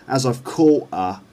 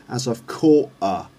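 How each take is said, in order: No difference in how they are said.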